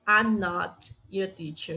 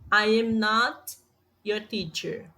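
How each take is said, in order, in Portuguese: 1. "I am" é contraído em uma sílaba. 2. "I am" é pronunciado como duas palavras completas. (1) "fazer da forma abreviada" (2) "não está abreviado"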